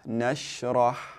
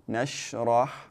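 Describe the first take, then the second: No difference in how they are said.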